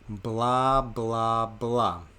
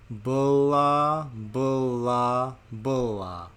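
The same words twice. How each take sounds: First: It is said a little slowly. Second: It is said very slowly, slowest of all. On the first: "A little bit slower" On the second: "And even slower still"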